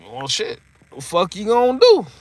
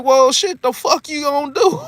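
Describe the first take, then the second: First: Said in the usual way. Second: Higher, laughing cocky challenge; laughing Mike quote. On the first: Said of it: "looking like". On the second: Retold or imitated. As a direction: quote Mike while cracking up. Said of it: "He's like".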